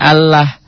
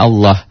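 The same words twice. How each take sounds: First: The vowel after the double L sounds thin. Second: The vowel after the double L sounds thick. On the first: The speaker calls it wrong. "Jadi dibacanya Allah. Bukan" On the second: The speaker calls it right. "Allah tebel itu seakan-akan ada O"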